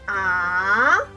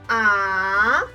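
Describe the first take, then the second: The two takes are said the same way.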